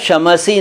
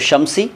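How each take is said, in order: First: An extra vowel splits the middle consonants. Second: The middle consonants run together without a vowel. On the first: The speaker calls it wrong. "शमसी नहीं है" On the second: The speaker calls it right. "शमसी ठीक है"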